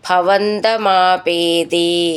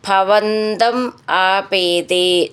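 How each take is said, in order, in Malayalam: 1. രണ്ട് വാക്കുകളും ചേർന്ന് ഒന്നായാണ് പറയുന്നത്. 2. രണ്ട് വാക്കുകളും വേർതിരിച്ചാണ് പറയുന്നത്.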